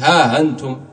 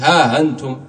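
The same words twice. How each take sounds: First: The glottal stop is softened toward a long a. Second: The same.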